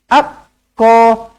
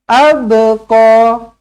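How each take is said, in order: First: The b is swallowed with no audible bounce. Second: The b is released with an audible bounce. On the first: The speaker calls it wrong. "Jangan abko ... tak nak" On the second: The speaker calls it right. "pastikan ada bunyi be-nya tu"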